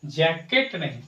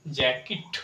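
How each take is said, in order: First: जैकेट with a full e, jay-ket; the common wrong way, जैकेट as jay-ket; wrong jacket. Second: जैकेट with a short i, jack-it; जैकेट as jack-it, the English way; correct jacket. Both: Shown as a demonstration. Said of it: "सही उच्चारण होगा English में जैकेट".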